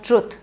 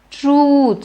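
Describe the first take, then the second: First: The vowel is kept short. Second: The vowel is stretched long. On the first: The speaker calls it wrong. "It's not truth" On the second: The speaker calls it right. "Stretch it, elongate it"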